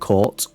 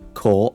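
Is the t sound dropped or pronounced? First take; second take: pronounced; dropped. First: The t sound is clearly pronounced. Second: The t sound is dropped.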